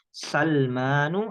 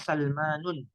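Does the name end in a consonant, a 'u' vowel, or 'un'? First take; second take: u; un. First: The name ends with a plain -u vowel. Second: The name ends with an added -un sound. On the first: The speaker calls it right. "Yang benar adalah Salmanu" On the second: The speaker calls it wrong. "tidak boleh bilang Salmanun"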